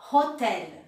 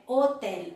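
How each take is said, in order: First: Hotel with the H breathed out, the way learners say it; imitating a learner's error. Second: Hotel with a silent H, starting straight on the vowel; correct French. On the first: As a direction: mimic the student who sounds the H in hotel. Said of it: "não, é hotel". (hotel com o H aspirado, como o aluno diz) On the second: Shown as a demonstration. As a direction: drop the H and begin hotel on the O. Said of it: "H não tem som em francês". (hotel sem H, começando na vogal)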